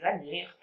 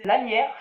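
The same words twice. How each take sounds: First: Lanière said cleanly as la-nière with a clear n; getting lanière right, the n clearly sounded; a careful, corrected lanière; careful correction. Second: Lanières slurred toward "lamières", m for the n; tripping over lanières, sounding it like lamières; stumbling over the word lanières; fumbled word. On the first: Shown as a demonstration. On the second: Real, not acted. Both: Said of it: "j'y arrive".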